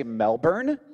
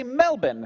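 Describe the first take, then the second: First: "Melbourne" with full r, MEL-burn; American pronunciation. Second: "Melbourne" without r, MEL-bin; Australian pronunciation. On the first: Podcaster quoting the version locals forbid, American MEL-burn. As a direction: sound the r in "Melbourne". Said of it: "You can't say Melbourne". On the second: Podcaster quoting locals' correction, Australian MEL-bin. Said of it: "You have to say". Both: Retold or imitated.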